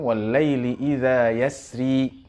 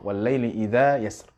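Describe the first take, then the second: First: The last word ends with an added i vowel. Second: The last word ends on a bare r consonant. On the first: The recitation continues straight into the next verse. "Kalau dalam riwayat Warsh ini dibaca wal-laili apabila disambung" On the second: The recitation stops at the end of the verse. "kalau diberhentikan atau diwaqaf"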